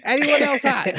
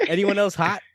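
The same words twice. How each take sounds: First: Louder, higher mock plea to the room; calling out. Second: Said in the usual way. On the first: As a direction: repeat it as if nobody heard, amused. Repeats the ignored question, escalating.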